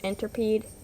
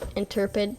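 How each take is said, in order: First: The last syllable has a long 'ee' vowel. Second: The last syllable has a short 'i' vowel. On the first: The speaker calls it wrong. "that sounded so wrong" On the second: The speaker calls it right. "I'll call it the interpid"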